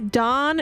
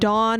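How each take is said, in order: First: The name has the vowel of Don. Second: The name has the vowel of Dawn. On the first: It is a man's name. "Dawn is a man" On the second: It is a woman's name. "Dawn is a woman"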